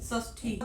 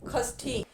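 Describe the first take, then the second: First: The word begins with a sh sound. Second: The word begins with a kh sound. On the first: The speaker calls it right. "इसका मानक रूप क्या है?" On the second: The speaker calls it wrong. "हम गलत उच्चारण कर देते हैं"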